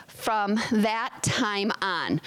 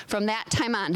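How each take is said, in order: First: Slow and deliberate; slow, emphatic reading. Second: Said in the usual way. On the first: Shown as a demonstration. Pastor lingering on the scripture phrase, slow and deliberate. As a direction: lean on each word of the key phrase.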